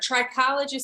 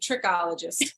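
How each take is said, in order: First: The first syllable sounds like 'try'. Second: The first syllable sounds like 'trick'. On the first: The speaker calls it right. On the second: The speaker calls it wrong.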